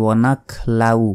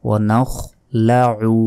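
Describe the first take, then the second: First: "ওয়ানাখলাউ" with a plain k and no ayn; ভুল উচ্চারণ. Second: "ওয়ানাখলাউ" slowly, with throaty kh and ayn before the final u; সঠিক আইন উচ্চারণ. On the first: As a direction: run "লাউ" together as a Bengali diphthong. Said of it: "আইনের উচ্চারণই হলো না". ("ওয়ানাখলাউ" আইন ছাড়া, সাধারণ লাউ-এর মতো) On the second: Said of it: "গলার ভেতর থেকে উচ্চারণ হবে". ("ওয়ানাখলাউ" ধীরে, গলার ভেতরের আইন দিয়ে) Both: Shown as a demonstration.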